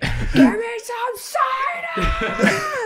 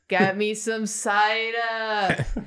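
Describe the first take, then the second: First: It is screamed at full volume. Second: It is said at a fairly normal volume.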